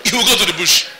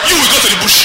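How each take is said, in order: First: The preacher laughing at his own punchline; laughing repeat. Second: Loud, sharp punchline, pitched up; preacher punching his joke loud before laughing; emphatic punchline. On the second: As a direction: hit the punchline hard. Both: Real, not acted.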